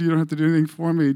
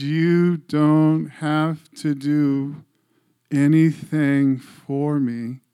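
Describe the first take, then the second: First: Said in the usual way. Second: Very slow, drawn-out, every word spaced; slow gentle voice of God. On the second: Retold or imitated. God speaking slowly to the grieving father, drawn-out. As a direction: let each word land slowly and calmly. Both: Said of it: "he was talking slow".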